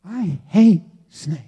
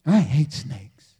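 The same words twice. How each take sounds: First: Slow, with HATE punched and set apart; emphatic repeat. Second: Low, slow deadpan admission; deadpan confession. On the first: Preacher repeating his confession to the congregation, stressing "hate". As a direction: repeat it word by word, leaning hard on "hate". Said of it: "I repeat". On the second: Preacher confessing a fear to the congregation, low deadpan. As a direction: state it low and drawn out. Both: Real, not acted.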